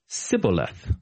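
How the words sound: It begins with an s sound, Ephraimite style.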